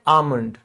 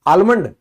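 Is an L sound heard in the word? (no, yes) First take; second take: no; yes. First: The L sound is left out of the word. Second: The L sound is pronounced in the word. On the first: The speaker calls it right. "ये एल silent है, इसको हम कहते हैं आमंड" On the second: The speaker calls it wrong. "नहीं, ये एल silent है"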